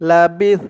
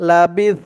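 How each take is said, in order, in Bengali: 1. শব্দটি ব্যঞ্জন 's'-এর উপর হঠাৎ শেষ হয়ে যায়। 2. শব্দটি ব্যঞ্জন 's'-এর উপর হঠাৎ শেষ হয়ে যায়।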